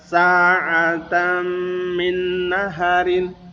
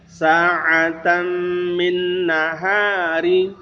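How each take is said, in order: First: The ha vowel is kept short. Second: The ha vowel is drawn out long. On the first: The speaker calls it wrong. "tidak dipanjangkan" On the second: The speaker calls it right. "huruf ha dipanjangkan dua harokat"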